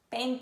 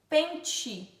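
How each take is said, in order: First: The t is said as a plain 't' sound. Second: The t is said like a 'ch' sound. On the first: "por causa da diferença em sotaque, algumas pessoas vão falar pente. Eu acho que no sul" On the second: "Quando a gente fala tch"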